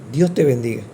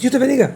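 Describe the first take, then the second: First: It is said calmly and sincerely. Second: It is said hurriedly and dismissively.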